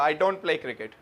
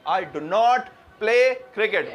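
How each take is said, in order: First: 'Do not' is contracted into one word, 'don't'. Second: 'Do not' is said as two separate full words. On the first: The negation is not emphasized. The speaker calls it wrong. "वरना क्या होगा ... like this" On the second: The speaker is emphasizing the negation. The speaker calls it right. "जब हमेशा अलग हो जाता है"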